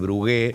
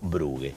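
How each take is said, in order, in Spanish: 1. El nombre se pronuncia al estilo francés. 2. El nombre se pronuncia al estilo alemán. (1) "lo había francesado" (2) "muy alemán"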